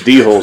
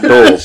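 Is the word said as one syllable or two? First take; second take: two; one. First: The word is said as two syllables, dee-holes. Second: The word is said as one syllable, doles. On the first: The speaker calls it wrong. "who the D-holes were" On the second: The speaker calls it right. "not doles ... now that you pronounced it right"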